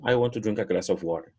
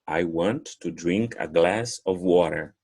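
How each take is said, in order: First: The sentence is said quickly, words run together. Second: The sentence is said at a normal pace.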